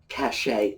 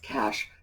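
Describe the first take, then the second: First: It has two syllables, ending in an 'ay' sound. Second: It has one syllable, sounding like 'cash'. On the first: The speaker calls it wrong. "sometimes pronounced cachet as well. That's not the correct pronunciation" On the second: The speaker calls it right. "The correct pronunciation is cash, just like the money in your pocket"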